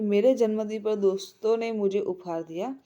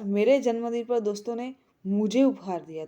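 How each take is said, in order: First: The stress is on मेरे. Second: The stress is on मुझे.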